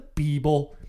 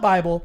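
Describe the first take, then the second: First: The first vowel sounds like 'ee'. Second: The first vowel sounds like 'eye'. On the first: This is how the cult leader said it. "which he pronounced Beeble" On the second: This is the usual way to say it. "Not Bible"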